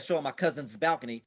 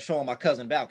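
First: Cousin is said with a final S sound. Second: Cousin is said without a final S sound. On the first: "I don't say" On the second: "The way I speak is"

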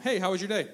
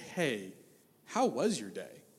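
First: It sounds quick and offhand. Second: It sounds warm and attentive.

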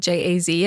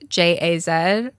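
First: The last letter is said as zee. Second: The last letter is said as zed.

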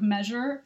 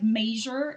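First: Measure is said with the standard vowel. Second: Measure is said with a Midwestern-sounding vowel. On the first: This is the usual way to say it. The speaker calls it right. "instead of measure" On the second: This is how an older Midwestern speaker says it. The speaker calls it wrong. "my dad says like measure"

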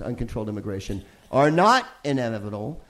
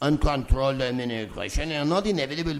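First: It is read in the speaker's own plain accent. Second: It is read in a put-on French accent.

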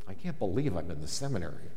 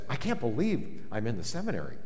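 First: It is said in a dismayed, disbelieving tone. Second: It is said in a delighted, amazed tone. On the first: Being there feels like a mistake. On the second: Being there feels like a dream come true.

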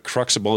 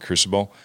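First: The middle has a 'ks' sound, like crux. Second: The middle has a plain 's' sound, like crucible. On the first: This follows the written spelling. "Cruxible is the phonetic way to pronounce it" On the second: This is the habitual everyday name. "I've always called it Crucible"

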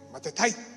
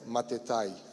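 First: The word is shouted like a forceful battle cry. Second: The word is said in a calm, plain voice.

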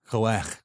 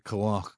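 First: The final vowel sounds like the a in cat. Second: The final vowel sounds like the a in hot. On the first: The speaker calls it right. "That's an a like cat, not an a like hot" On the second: The speaker calls it wrong. "I shouldn't say koach"

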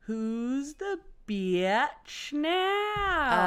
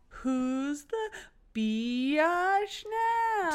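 First: The word is said plainly as bitch. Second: The word is drawn out as biatch. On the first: "I think they're saying bitch like this" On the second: "They're not saying biatch"

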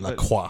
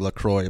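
First: The name is pronounced the French way. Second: The name is pronounced the English way. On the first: The speaker calls it right. "but actually, I took like 5 years of French" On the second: The speaker calls it wrong. "If you pronounce it like in English, then you'd say"

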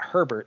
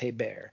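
First: The name sounds like the English name Herbert. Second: The name is said the French way, ay-bear. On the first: The speaker calls it wrong. "It's not Herbert" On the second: The speaker calls it right. "so that's how you say it"

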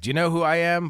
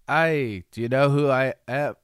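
First: It is said in the speaker's own accent. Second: It is said in an imitated Australian accent.

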